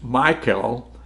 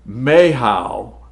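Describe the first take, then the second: First: The name is pronounced the English way. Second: The name is pronounced the Hebrew way. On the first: "that's how I pronounce it in the English" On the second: "Mehal is how it's said in the Hebrew language"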